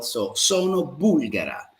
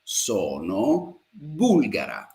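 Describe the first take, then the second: First: Said in the usual way. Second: Sono bulgara said very slowly and evenly, falling at the end; slow model sentence. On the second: Shown as a demonstration. Teacher drilling the feminine form slowly for the class. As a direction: stretch out Sono bulgara for learners to copy. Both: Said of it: "she's a female".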